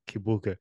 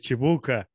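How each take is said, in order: First: It begins with a hard k sound. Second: It begins with a ch sound.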